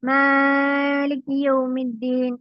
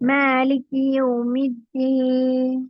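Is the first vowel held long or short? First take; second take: long; short. First: The first vowel is stretched too long. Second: The first vowel is held for two counts. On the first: The speaker calls it wrong. "ചിലര് മാലിക് യൗമിദ്ദീൻ എന്ന് പറയും. അങ്ങനെയല്ല" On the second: The speaker calls it right. "വെറും രണ്ട് ഹർഫ് മാത്രം നീട്ടിയാൽ മതി"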